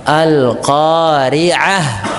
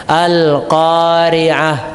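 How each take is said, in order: No difference in how they are said.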